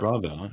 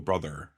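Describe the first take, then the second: First: The final R sound is dropped. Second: The final R sound is pronounced. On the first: "instead of" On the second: "you add the R's back to words"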